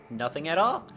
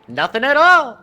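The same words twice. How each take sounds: First: It is said in the speaker's normal voice. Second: It is said in a Ned Flanders impression.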